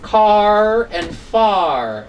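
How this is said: The final R sounds are clearly pronounced. "we are reading them today"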